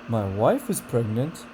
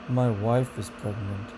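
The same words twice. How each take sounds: First: The pitch rises toward the end. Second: The pitch falls toward the end. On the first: The speaker is excited about the news. "Enthusiasm, excitement, and disbelief, it has rising intonation" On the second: The speaker is unhappy about the news. "disinterest, boredom, and disappointment has falling intonation"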